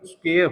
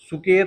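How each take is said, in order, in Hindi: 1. शब्द की शुरुआत में कसा हुआ skw व्यंजन गुच्छ है। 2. s और k के बीच एक स्वर डाला गया है। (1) "स्क्वायर होता है" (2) "सुकेर नहीं होता"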